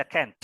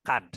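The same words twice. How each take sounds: First: "can't" said like "kent", lower at the end; American can't. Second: "can't" lower, with an open ah; British can't. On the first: Teacher repeating the American reading, "can't" as "kent". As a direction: give "can't" the American front vowel. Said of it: "itu pronunciation-nya orang Amerika". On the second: Teacher repeating the English reading, "can't" as "kahnt". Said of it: "pronunciation-nya orang Inggris". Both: Shown as a demonstration.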